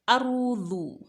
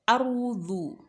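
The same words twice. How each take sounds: Both takes have the same delivery.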